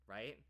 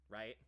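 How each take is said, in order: The two takes are said the same way.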